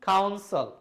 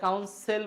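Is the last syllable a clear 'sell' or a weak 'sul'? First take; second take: weak sul; clear sell. First: The last syllable is a weak 'sul'. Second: The last syllable is a clear 'sell'. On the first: The speaker calls it right. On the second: The speaker calls it wrong.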